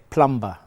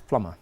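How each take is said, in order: First: The b sound is pronounced in the middle. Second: The b sound is silent in the middle. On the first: The speaker calls it wrong. "They pronounce the B" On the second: The speaker calls it right. "The B is silent in that word"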